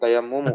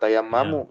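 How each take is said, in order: First: The vowel after the double m is 'u'. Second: The vowel after the double m is 'a'. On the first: The speaker calls it right. "tapi tayammumu" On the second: The speaker calls it wrong. "bukan tayammamu"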